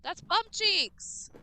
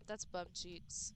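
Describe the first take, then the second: First: That's bum cheeks! shouted high and slow; loud complaint. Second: That's bum cheeks. dropped low and soft, slowly; quiet grumble. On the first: Streamer complaining loudly about the game, slow disgusted yell. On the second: Streamer repeating the complaint to themself, soft and slow. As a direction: let it sink into a soft defeated grumble. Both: Real, not acted.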